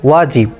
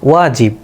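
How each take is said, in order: The two takes are said the same way.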